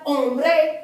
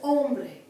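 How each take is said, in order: First: The stress is on the last syllable. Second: The stress is on the first syllable. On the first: The speaker calls it wrong. "It's not hombre" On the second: The speaker calls it right. "it's hombre"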